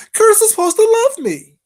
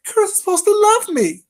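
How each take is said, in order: First: High loud mimicking squeal, stress on Curtis; mock her again, higher and louder; sneering high imitation, Curtis hit hardest. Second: High loud mimicking squeal; mock her voice, high and loud; sneering high imitation of her. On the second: Mocking her claim, shrill.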